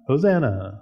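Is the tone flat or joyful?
flat. It is said flatly, without emotion.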